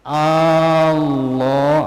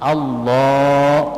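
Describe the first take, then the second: First: The first vowel is drawn out long. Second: The first vowel is short and quick. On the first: The speaker calls it wrong. "kalau dipanjangkan hamzahnya. Allah, nah berarti sudah salah" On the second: The speaker calls it right. "Jadi harus cepat"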